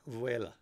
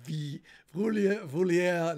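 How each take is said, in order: First: It is said as vuela. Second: It is said as vi-vulia. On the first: The speaker calls it right. "no, Vuela" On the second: The speaker calls it wrong. "not Vi Vulia"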